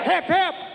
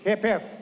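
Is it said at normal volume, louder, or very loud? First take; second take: louder; normal. First: It is said with a raised voice. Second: It is said at a normal volume.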